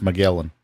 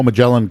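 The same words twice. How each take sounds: First: Magellan with a hard G; alternative pronunciation. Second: Said in the usual way. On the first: Shown as a demonstration. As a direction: say Magellan with G as in "get". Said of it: "could be pronounced Magellan". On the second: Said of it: "could be pronounced".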